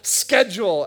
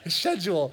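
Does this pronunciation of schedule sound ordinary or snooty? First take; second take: ordinary; snooty. First: The word is said in an ordinary way. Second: The word is said in a slightly snooty way. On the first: This is how other people say it. The speaker calls it wrong. "I hear people say things like schedule, ... that does not fit" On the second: This is how the speaker thinks it should be said. The speaker calls it right. "It's a little snooty, but it sounds better"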